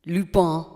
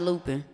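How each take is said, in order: First: Lupin said the French way, loo-PAN with nasal end; French pronunciation. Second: Said in the usual way. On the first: Shown as a demonstration. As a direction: say Lupin as a French speaker would, no final n. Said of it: "I've been watching Lupin".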